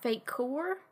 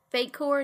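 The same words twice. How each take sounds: First: "fake core" slow, as two separate words, rising. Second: "fake core" run together quickly as one word. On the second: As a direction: say "fake core" joined up, no gap. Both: Shown as a demonstration. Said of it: "it's one word and not two words".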